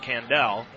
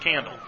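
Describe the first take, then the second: First: The name ends with a full 'dell' sound. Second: The name ends with a reduced 'dle' sound. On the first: This is how the name is said at one school. "At Northwestern, it's pronounced Candell" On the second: This is how the name is said at another school. "In Dalton, it's Candle"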